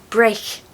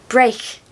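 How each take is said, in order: No difference in how they are said.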